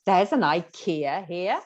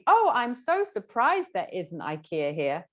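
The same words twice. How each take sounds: First: Slow, stretched "ikea" with a rising tune; questioning, disbelieving lilt on "ikea"; surprise through intonation. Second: Mock gushing surprise, leaning on "so surprised"; hammed-up "Oh" of surprise; explicitly stated surprise. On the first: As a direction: let only the rise on "ikea here" show surprise. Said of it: "just the intonation is expressing some kind of, uh, emotion". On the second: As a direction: spell out the surprise in an acted exclamation. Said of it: "there wasn't anything". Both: Shown as a demonstration.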